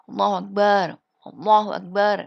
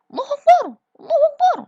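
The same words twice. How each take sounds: First: It is said in a soft, gentle voice. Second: It is said loudly, like shouting.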